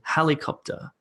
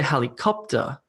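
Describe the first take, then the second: First: The stress is on the first syllable. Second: The stress is on a later syllable. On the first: The speaker calls it right. "Instead, we say helicopter" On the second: The speaker calls it wrong. "We don't say helicopter"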